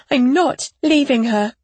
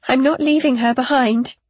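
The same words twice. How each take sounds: First: NOT hit hard in protest; protective, adamant insistence; emphatic refusal. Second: Firm, distressed insistence; defiant refusal. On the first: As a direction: repeat it forcefully, punching "not". Mother repeats her refusal. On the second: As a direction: refuse to give up your baby. Mother refuses to abandon baby. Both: A narrator's reading.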